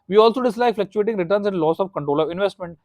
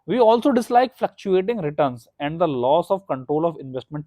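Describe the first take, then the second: First: It is read at a fast pace. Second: It is read at a slower pace.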